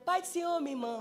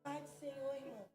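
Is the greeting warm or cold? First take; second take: warm; cold. First: The greeting sounds warm and friendly. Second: The greeting sounds cold and unfriendly.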